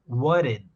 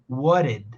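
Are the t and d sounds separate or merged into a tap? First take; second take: tap; tap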